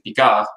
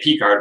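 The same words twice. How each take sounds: First: It is said the French way. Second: It is said the English way.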